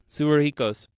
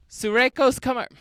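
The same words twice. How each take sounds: First: Suruhiko's said carefully as su-ru-hi-ko; corrected name. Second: Name said as Sureko's, syllables dropped; mispronounced name. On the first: Correcting the name mid-story, Suruhiko's said carefully. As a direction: fix the name Suruhiko's deliberately. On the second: Retelling the aunt's cry, Sureko's said wrong. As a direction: slip on the name Sureko's before correcting. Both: Shown as a demonstration.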